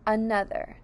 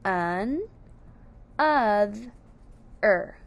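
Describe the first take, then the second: First: Said in the usual way. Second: Un, oth, er as three separate syllables; split into syllables. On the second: Shown as a demonstration. Teacher giving the syllables of another, split into syllables. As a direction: pause after each of un, oth, er. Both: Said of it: "syllables of another are".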